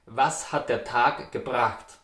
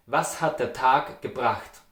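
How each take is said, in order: Both takes have the same delivery.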